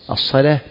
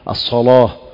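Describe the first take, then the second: First: The L is pronounced light and thin. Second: The L is pronounced heavy and emphatic. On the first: This follows the other traditional readings of the text. "بينما سائر القراء يقرؤون" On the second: This follows one traditional reading of the text. "كما يقرأ ورش الصلاة فيفخم"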